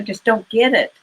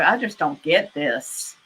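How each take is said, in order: First: It is said in a kind, sympathetic tone. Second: It is said in a snarky, mocking tone.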